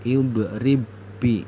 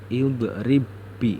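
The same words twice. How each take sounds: First: The b is merged into one doubled b. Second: The same.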